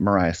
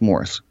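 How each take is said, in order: First: The name is said as spelled, like 'Marias'. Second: The name is said like the word 'Morris'. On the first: The speaker calls it wrong. "Killing me with that Marias" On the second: The speaker calls it right. "It's Morris"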